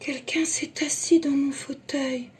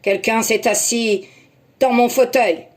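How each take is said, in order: First: It is said in Mama Bear's soft voice. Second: It is said in Papa Bear's very deep voice.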